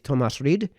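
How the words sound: The name is pronounced with German sounds. "which would be the German way of pronouncing it"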